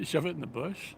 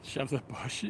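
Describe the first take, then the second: First: Laughing, rising in disbelief; incredulous question. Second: Said in the usual way. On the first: Real, not acted. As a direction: repeat it back, amused and baffled.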